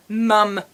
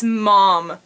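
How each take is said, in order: First: "mum" said with the vowel of "but", British style. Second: "mom" said with an open "ah" vowel, American style. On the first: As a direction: say "mum" the English way, rhyming with "gum". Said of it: "instead of ... or mom". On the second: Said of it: "It's mom". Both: Shown as a demonstration.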